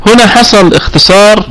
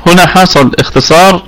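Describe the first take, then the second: First: هنا said higher and with weight; emphasis on هنا. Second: Said in the usual way. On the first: Shown as a demonstration. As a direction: lean on هنا to point out the abbreviation. (تأكيد قوي على كلمة هنا) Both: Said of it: "repeated for emphasis".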